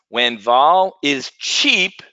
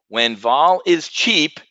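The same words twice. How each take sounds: First: It is spoken more slowly and deliberately. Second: It is spoken at a normal, quick pace.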